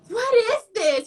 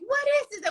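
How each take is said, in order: First: Higher, puzzled what is this; mock disbelief, pitched up; baffled. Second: Much higher, incredulous what is this; mock disbelief, pitched way up; more baffled. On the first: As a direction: act confused by a strange request. Reacting to a begging stranger. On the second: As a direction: play it even more bewildered. Reacting again to the stranger.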